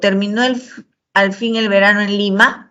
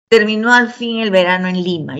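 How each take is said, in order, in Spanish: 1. La voz sube al final, como en una pregunta. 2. La voz baja al final, como en una afirmación.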